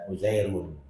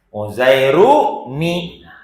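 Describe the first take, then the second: First: The word ends with a plain 'n' sound. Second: The word ends with an added 'ni' syllable. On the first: The speaker calls it wrong. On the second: The speaker calls it right. "buang tanwinnya, ya ganti dengan ni"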